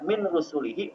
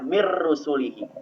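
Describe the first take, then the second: First: The n sound is pronounced before the r. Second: The n merges into a doubled r sound. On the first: The speaker calls it wrong. "tidak boleh dibaca min rusulihi" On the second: The speaker calls it right. "jadi membacanya mir rusulihi"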